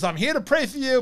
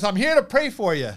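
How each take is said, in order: First: Much higher, louder rabbi offering prayer; high, louder rabbi greeting; rabbi's voice. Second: Raised and louder, a kindly rabbi announcing himself; higher, louder visiting rabbi; rabbi's voice. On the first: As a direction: lift it up like the little rabbi arriving. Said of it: "He goes". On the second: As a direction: play the rabbi bursting in to pray. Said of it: "and he goes". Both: Retold or imitated.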